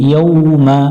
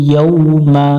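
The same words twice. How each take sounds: Both takes have the same delivery.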